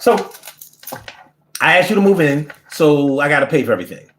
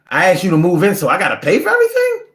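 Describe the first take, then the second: First: It ends falling, like a statement. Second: It ends rising, like a question.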